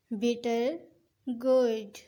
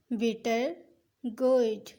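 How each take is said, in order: Both takes have the same delivery.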